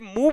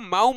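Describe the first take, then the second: First: The vowel sounds like 'oo' in shoe. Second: The vowel sounds like 'ow' in cow. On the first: The speaker calls it right. "ये मुंह बोला जाता है" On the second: The speaker calls it wrong. "इसको माऊ मत बोलिएगा"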